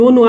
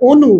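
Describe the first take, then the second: First: অনু begun with an open "aw": "aw-nu"; wrong open vowel. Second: অনু said "o-nu", with a round "o"; rounded closed vowel. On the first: Teacher warning students of a mistake, open-vowel অনু. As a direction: leave the first vowel of অনু open, unrounded. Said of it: "এটা অনু বললে ভুল হবে". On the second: Teacher giving students the correct form, round "o" in অনু. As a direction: round the lips to start অনু. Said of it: "এটার উচ্চারণটা হবে অনু". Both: Shown as a demonstration.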